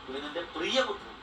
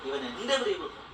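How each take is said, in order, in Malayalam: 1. ഊന്നൽ 'beloved' എന്നതിലാണ്. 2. ഊന്നൽ രണ്ടാം വാക്കിലാണ്.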